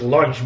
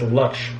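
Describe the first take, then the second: First: The word is said with an N sound. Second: The word is said without an N sound. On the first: The speaker calls it wrong. "I was pronounced as lunch" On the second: The speaker calls it right. "but it's lunch. No N in it"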